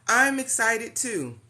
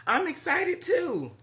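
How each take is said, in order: First: Said in the usual way. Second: Excited. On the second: Real, not acted. Greeting viewers on a live stream.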